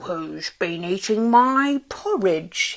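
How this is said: It is said in a deep, growling voice. A big gruff creature is speaking. "He growled in his deep voice"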